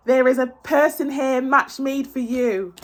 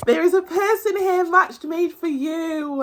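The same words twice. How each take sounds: First: Said in the usual way. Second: Said again higher, slow and insistent; emphatic repeat. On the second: Real, not acted. Reader repeating her promise to viewers, higher and emphatic. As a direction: press it home the second time.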